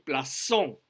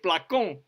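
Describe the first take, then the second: First: The c is pronounced as a soft s. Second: The c is pronounced as a hard k. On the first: The speaker calls it right. "on dit plaçon, une cédille" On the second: The speaker calls it wrong. "On ne peut pas dire placon"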